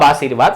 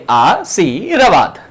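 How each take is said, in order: First: Said in the usual way. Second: आशीर्वाद slowly split as "आ… शी… र… वाद"; syllable by syllable. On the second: Shown as a demonstration. Teacher checking the spelling aloud, slowly syllable by syllable. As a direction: stretch आ and शी, then land on र-वाद. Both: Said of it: "रे का उच्चारण लिख दो".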